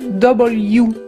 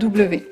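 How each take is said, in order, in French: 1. La lettre se nomme à l'anglaise. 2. La lettre se nomme à la française. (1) "En anglais, on va dire W" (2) "et pas W"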